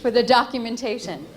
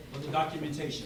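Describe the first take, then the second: First: Projected, louder line for the mic; louder mic check. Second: Softer test. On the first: Speaker testing the mic for the recording, projected louder. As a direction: push it out for the recording. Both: Real, not acted. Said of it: "I have a pretty loud voice".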